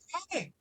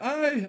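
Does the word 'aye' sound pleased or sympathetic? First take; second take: pleased; sympathetic. First: The word sounds upbeat and pleased. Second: The word sounds low and sympathetic. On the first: Good news is being welcomed. "I just got a new gig DMing it, and I'll be like" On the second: Bad news is met with sympathy. "I just lost my, my job and I'm unemployed. I'll be like"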